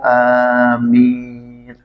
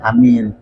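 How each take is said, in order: First: The first vowel is drawn out long. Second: The first vowel is kept short. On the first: Grant our prayer. "kalau dibaca panjang amin artinya kabulkan" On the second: Trustworthy. "Enggak dibaca panjang hamzahnya"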